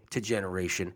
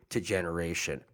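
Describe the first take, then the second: No difference in how they are said.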